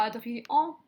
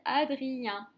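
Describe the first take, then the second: First: "Adrien" ending in "an", like "Adri-an"; wrong nasal vowel. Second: "Adrien" ending in nasal "un", drawn out slowly. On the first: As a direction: say "Adrien" with a final "en" as in "enfant", rising. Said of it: "On dit pas Adrien". (« Adrien » mal lu, qui finit en « an ») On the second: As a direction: say "Adrien" slowly, last vowel as in "chien". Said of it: "Le E N se transforme en son un". (« Adrien » lentement, finale en son « un ») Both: Shown as a demonstration.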